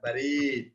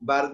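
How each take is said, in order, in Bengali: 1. দ্বিতীয় স্বরধ্বনিটি দীর্ঘ করে টানা হয়। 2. প্রথম স্বরধ্বনিটি দীর্ঘ করে টানা হয়। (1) "বায় টান দিব না, বলবো রয় টান দিব" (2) "বারিদ মানে কুল"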